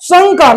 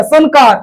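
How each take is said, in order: First: संकार said "sangkaar"; nasal ng sound. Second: संकार said "san-kaar"; tongue-tip n in संकार; wrong n sound. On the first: Teacher models the educated reading, संकार with ng. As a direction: back ng before का in संकार. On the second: Teacher shows a common misreading, संकार with plain n. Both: Shown as a demonstration. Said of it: "लेकिन सबको नहीं पढ़ेगा".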